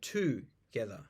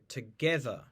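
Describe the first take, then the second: First: The middle syllable is not stressed. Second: The middle syllable is stressed. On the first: The speaker calls it wrong. "We don't say together" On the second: The speaker calls it right. "We say together. We stressed the syllable get"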